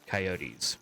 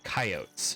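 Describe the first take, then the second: First: It is said a non-Western regional way. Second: It is said the Western United States way.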